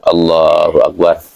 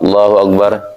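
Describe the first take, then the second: First: It is said rather slowly. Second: It is said very fast.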